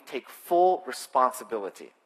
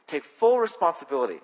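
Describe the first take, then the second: First: Said in the usual way. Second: Louder, with weight on "full"; emphatic repeat. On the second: Shown as a demonstration. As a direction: press "full" hard as you repeat the command.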